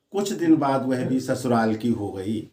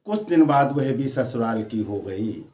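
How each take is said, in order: Both takes have the same delivery.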